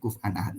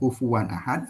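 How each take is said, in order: First: The word is said as kuf'an, two syllables. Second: The word is said as kufuwan, three syllables. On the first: Another school of recitation reads it this way. "ada yang membacanya kuf'an ahad" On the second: One school of recitation reads it this way. "Ada yang membacanya kufuwan ahad"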